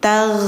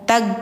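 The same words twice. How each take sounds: First: The gh sound flows with continuous friction. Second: The gh sound is cut off sharply. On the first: The speaker calls it right. "tapi tag, tag mengalir ya" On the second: The speaker calls it wrong. "Jadi gho-nya itu enggak tag"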